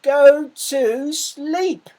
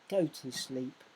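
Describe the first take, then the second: First: It is said loudly with a raised voice. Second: It is said calmly at normal volume. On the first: "He actually said" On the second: "I don't think Big Mouse just said"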